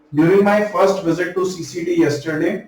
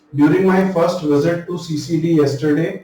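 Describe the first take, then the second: The two takes are said the same way.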